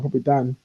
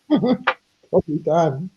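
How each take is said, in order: First: Said in the usual way. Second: Drawled slowly, "Probably Dan" teased; slow teasing drawl. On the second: Shown as a demonstration. Repeating her joke about Dan, slow teasing drawl.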